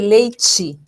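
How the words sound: The t is said another region's way. "mas se você vai para uma outra região, você pode ter leite"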